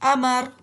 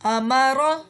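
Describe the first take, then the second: First: The word ends on a consonant, vowel dropped. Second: The word ends on an open vowel sound.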